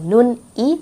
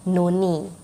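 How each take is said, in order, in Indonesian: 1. Bunyi n tetap terpisah dari vokal. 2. Bunyi n menyambung ke vokal setelahnya. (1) "bukannya nun I" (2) "tapi nuni"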